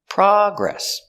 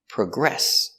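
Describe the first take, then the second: First: The stress is on the first syllable. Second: The stress is on the second syllable. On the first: It is used as a noun. "the noun, the stress is on the first syllable" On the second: It is used as a verb. "the verb is progress, with the stress on the second syllable"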